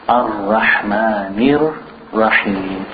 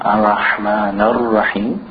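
First: The n takes an i-vowel, linking into Rahim. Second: The n ends without an i-vowel before Rahim. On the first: The speaker calls it right. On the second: The speaker calls it wrong.

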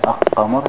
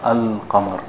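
First: The l merges into a doubled q sound. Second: The article's l sound is clearly pronounced. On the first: The speaker calls it wrong. "You don't say al-qamar" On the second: The speaker calls it right. "you pronounce the lam in the beginning al"

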